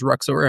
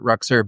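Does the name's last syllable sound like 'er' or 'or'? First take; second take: or; er. First: The last syllable has a full 'or' sound. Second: The last syllable has a weak 'er' sound. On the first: This is how other people may say the name. "but if someone else says Ruxor, I'm totally okay with that" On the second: This is how the owner says the name. "So I pronounce it Ruxer"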